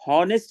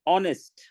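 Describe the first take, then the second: First: The word begins with an h sound. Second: The word begins with a vowel sound. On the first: The speaker calls it wrong. "हॉनेस्ट नहीं कहते" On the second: The speaker calls it right. "ओ की आवाज आ रही है"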